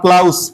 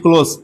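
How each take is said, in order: First: The vowel sounds like 'ow', as in 'cloud'. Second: The vowel sounds like 'oh', as in 'close'. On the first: The speaker calls it wrong. "Not ক্লাউজ বা ব্লাউজ বলা যাবে না" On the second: The speaker calls it right. "একে ক্লোজ বলতে হবে।"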